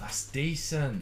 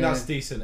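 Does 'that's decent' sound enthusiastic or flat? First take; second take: enthusiastic; flat. First: It is said in an impressed, enthusiastic tone. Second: It is said in a flat, unimpressed tone. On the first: It is better than good. "it's oh, that's decent" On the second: It is merely average. "instead of being that's decent"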